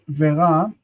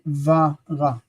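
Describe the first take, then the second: First: The conjunction is pronounced with an 'e' vowel. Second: The conjunction is pronounced with an 'a' vowel. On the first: The speaker calls it wrong. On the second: The speaker calls it right.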